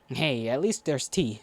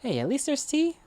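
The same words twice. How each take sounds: First: It is said aggressively, with a growl. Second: It is said lightly, without a growl. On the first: The speaker calls it wrong. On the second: The speaker calls it right.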